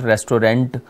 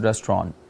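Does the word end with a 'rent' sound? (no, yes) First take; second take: yes; no. First: The last syllable sounds like 'rent'. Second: The last syllable does not sound like 'rent'. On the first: The speaker calls it wrong. "it's not restaurant" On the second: The speaker calls it right. "this is not rent, it's a restaurant"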